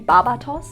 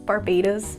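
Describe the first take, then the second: First: The name is said the German way. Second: The name is said the English way. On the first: "If you pronounce it in the German way" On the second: "is how they pronounce it"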